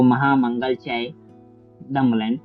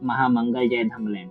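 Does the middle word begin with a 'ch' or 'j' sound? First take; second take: ch; j. First: The middle word begins with a 'ch' sound. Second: The middle word begins with a 'j' sound. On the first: This is how Thai people pronounce it. "Thailand के लोग इसे pronounce करते हैं" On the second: This is how it is written in Devanagari. "Devanagari में लिखा भी है"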